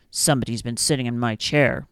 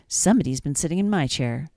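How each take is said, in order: First: Low, gruff papa bear voice; big bear finding his chair used, low growl. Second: Said in the usual way. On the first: A narrator's reading. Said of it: "the big bear growled". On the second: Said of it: "The middle-sized bear said".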